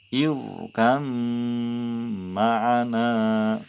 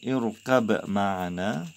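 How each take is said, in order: First: The b sound merges into a doubled m. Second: The b sound is kept before the m. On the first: "dibaca idgham" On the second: "Tulisan irkab ma'ana"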